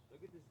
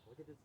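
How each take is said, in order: Both takes have the same delivery.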